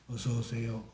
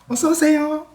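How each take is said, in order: First: The greeting sounds cold and unwelcoming. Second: The greeting sounds bright and cheerful, higher pitched.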